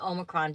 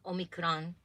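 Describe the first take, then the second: First: It is said with an English pronunciation. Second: It is said with a Japanese-style pronunciation. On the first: The speaker calls it wrong. "I keep saying it wrong. I keep saying Omicron" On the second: The speaker calls it right. "in Japanese they say something like Omicron"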